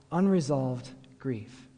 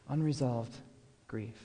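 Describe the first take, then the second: First: Unresolved grief drawn out slowly; "unresolved grief" spoken slowly and heavily as the monk's key phrase; slow, weighty quote. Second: "Unresolved grief" repeated much softer, fading away; a hushed repeat of "Unresolved grief", dying off on grief; soft echo. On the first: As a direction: let "unresolved grief" land slowly, each word weighed. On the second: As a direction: echo "Unresolved grief" quietly to let it sink in. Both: Shown as a demonstration.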